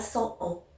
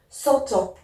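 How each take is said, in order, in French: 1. Les mots se disent séparément, sans son t. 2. Un son t relie les deux mots.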